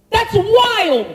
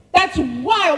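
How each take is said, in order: First: "That's wild." with "wild" stressed and falling; amazed exclamation. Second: Said in the usual way. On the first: Real, not acted. Preacher marvels at the talking donkey, stressing "wild". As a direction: marvel at it out loud.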